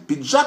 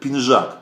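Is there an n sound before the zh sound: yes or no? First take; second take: no; yes. First: It is said with a plain d sound before zh. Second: It is said with an n sound before zh.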